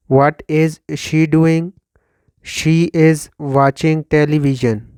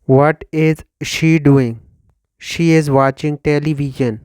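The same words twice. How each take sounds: The two takes are said the same way.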